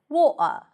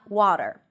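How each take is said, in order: First: It is said with a non-American accent. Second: It is said with an American accent. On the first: "the host always says water" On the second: "and not water"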